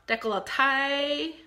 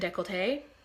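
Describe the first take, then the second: First: It is said in a Southern American accent. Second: It is said in a plain, neutral accent.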